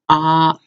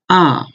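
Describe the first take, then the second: First: The pitch stays level and unchanged. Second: The pitch falls sharply from high to low. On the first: "the first one is ah" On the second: "The fourth one is ah"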